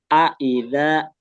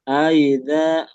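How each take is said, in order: First: The two vowels are kept clearly apart. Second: The two vowels are slurred together into one. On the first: The speaker calls it right. "terpisah dan jelas bacanya" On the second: The speaker calls it wrong. "Kayak diseret gitu, disambung"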